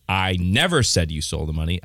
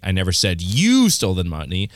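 First: Never pushed up, rising; stress on NEVER. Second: You pushed up and louder; stress on YOU. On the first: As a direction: lean on the word never. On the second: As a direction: lean on the word you. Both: Shown as a demonstration. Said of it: "put the emphasis on every single different word".

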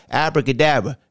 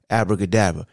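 First: A hint of a straining voice; mild strained-voice abracadabra. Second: Lower, deep-voice abracadabra. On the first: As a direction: say it with a tight, strained push. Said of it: "the voice is high pitched and sound like it's straining". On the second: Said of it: "The deep voice like this". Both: Shown as a demonstration.

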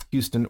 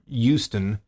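First: Said in the usual way. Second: Houston said as YOO-ston, without the H; slow Houston with a hard U, like "YOU-ston"; hard U pronunciation. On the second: Shown as a demonstration. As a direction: drop the H in Houston, start on a drawn-out "you". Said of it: "say it with a hard U".

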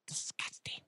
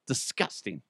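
First: Very soft, voiceless disgust; hushed, revolted repeat; disgusted whisper. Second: Said in the usual way. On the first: Real, not acted. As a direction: whisper it with revulsion.

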